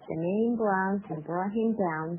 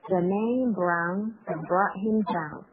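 First: It is said at the fastest pace. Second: It is said at a slow pace.

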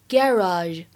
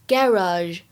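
First: It is said in a British accent. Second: The same.

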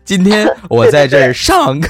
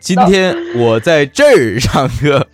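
First: The stress is on 上课. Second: The stress is on 在这儿.

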